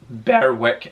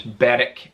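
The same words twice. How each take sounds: First: The W in the middle is pronounced. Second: The W in the middle is not pronounced. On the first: The speaker calls it wrong. "It's not pronounced Berwick" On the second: The speaker calls it right. "It's a silent W"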